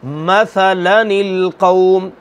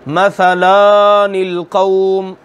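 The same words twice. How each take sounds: First: Very slow "मसलनिल कौम", silent alif skipped, nun read with kasra; the model reading of "मसलनिल कौम" with the small nun voiced; correct reading. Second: Slow "मसलनिल कौम" with the alif wrongly voiced, "मसलानिल"; a deliberately wrong "मसलनिल कौम" with the extra long a sounded; wrong reading. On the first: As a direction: stretch "मसलनिल कौम" out, gliding lam straight to "निल". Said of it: "और पढ़ने का तरीक़ा क्या है?". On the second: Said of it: "ये गलत हो जाएगा". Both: Shown as a demonstration.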